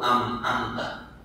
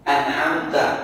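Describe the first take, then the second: First: The middle is a doubled m with no throaty catch. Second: The middle has a throaty catch after the n. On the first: The speaker calls it wrong. "Dari kecil ngobrol-ngobrol tuh am-amta" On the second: The speaker calls it right. "beda antara ain dengan amta"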